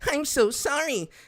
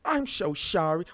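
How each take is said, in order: First: It is said in a put-on character voice. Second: It is said in a plain, ordinary voice. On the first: The speaker calls it right. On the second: The speaker calls it wrong.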